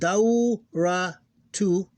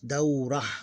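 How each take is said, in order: First: The word ends with a full 'tu' syllable. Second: The word stops at 'ah' without the 't'.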